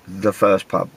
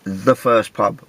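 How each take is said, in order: Both takes have the same delivery.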